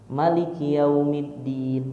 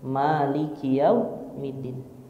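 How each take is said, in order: First: The first vowel of Maliki is said short. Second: The first vowel of Maliki is drawn out long. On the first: "maknya dibaca pendek" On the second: "maknya pan, panjang"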